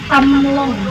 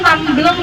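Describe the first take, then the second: First: No b sound is heard between m and l. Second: A b sound is heard between m and l. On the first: This is the family's original name. The speaker calls it right. "tapi Tamlong" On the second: This is how local people say the name. The speaker calls it wrong. "Tapi sebenarnya bukan Tamblong ya"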